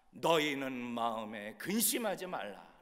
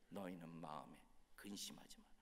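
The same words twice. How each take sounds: First: Slow, firm declaration of the verse; scripture proclamation. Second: Very soft, low, near-whispered verse; hushed echo. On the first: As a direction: proclaim it slowly in a full voice. Scripture declared, then echoed softly. (천천히 힘 있게 선포하는 성경 말씀) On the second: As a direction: let it sink in, low and hushed. Same verse echoed softly. (낮고 조용히 속삭이듯 되뇌는 말씀) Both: Acted.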